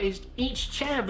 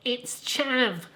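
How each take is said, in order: First: Higher, slow and squeaky, Southern; mock your younger self insisting in a squeaky Southern voice; squeaky Southern accent on "chav". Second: Higher, squeaky Southern "It's chav"; squeaky Southern accent on "chav". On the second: Retold or imitated. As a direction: insist again in a squeaky Southern voice. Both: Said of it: "in my squeaky Southern voice".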